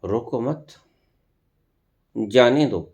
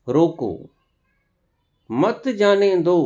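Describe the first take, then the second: First: "रोको मत" joined, pause, then "जाने दो"; pause after मत. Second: "रोको", long pause, then a higher, slow "मत जाने दो"; pause after रोको. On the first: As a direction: join "रोको मत", stop, release with "जाने दो". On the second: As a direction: stop after "रोको", join "मत जाने दो" as one command. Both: Shown as a demonstration. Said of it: "मात्र ठहराव से".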